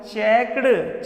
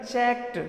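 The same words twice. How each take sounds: First: चेक्ड stretched very slowly, ending clearly; slow pronunciation demo. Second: चेक्ड softer, with a short t at the end; correct pronunciation. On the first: Teacher demonstrates चेक्ड slowly to students. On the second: Teacher gives students the corrected चेक्ड. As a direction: say चेक्ड quickly with a light t. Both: Shown as a demonstration. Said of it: "चेक नहीं बेटा, चेक्ड".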